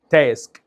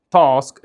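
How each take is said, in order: First: American "تاسك" with a fronted "a" as in cat; thin front vowel in "تاسك"; American pronunciation. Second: British "تاسك" with a long open "ah"; broad back vowel in "تاسك"; British pronunciation. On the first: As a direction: say "تاسك" as "tesk", American style. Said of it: "الامريكان يقول تاسك". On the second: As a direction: say "تاسك" as "tahsk", British style. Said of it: "البريتش يقول". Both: Shown as a demonstration.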